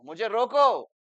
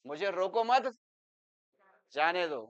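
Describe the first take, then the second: First: "मुझे रोको" higher and much louder, cut off there; pause after रोको. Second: "मुझे रोको मत", a clear break, then "जाने दो"; group मत with रोको, pause, then release जाने दो; pause after मत. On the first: Teacher contrasting meanings for students, emphatic stop after "रोको". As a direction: hit रोको hard and stop. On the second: Teacher contrasting meanings for students, break between "मत" and "जाने दो". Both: Shown as a demonstration. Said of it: "एक ही शब्द के meaning positive भी है".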